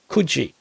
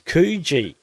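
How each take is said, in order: First: Coogee is pronounced the New South Wales way. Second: Coogee is pronounced the Western Australian way. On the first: "I grew up in the eastern states, um, New South Wales ... I know to pronounce it Coogee" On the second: "When you come to W A, it's Coogee. They pronounce it differently"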